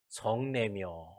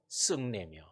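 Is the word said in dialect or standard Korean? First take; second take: standard; dialect. First: The word is said in standard pronunciation. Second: The word is said in a regional dialect. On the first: "성내며 이래야 되는데" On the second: "일부러 제가 사투리를 써본 거예요"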